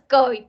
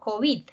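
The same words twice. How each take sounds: First: The stress is on the first syllable. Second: The stress is on the last syllable. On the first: This is how people commonly say it. The speaker calls it wrong. "Nosotros decimos COVID" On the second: This is the form the Academy recommends. The speaker calls it right. "Con acento al final"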